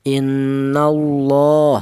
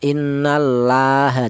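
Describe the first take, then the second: First: The l in Allah sounds thick and heavy. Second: The l in Allah sounds thin and light. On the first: The speaker calls it right. "dibaca tafkhim atau dibaca tebal" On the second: The speaker calls it wrong. "Tidak boleh dibaca tarkik ya"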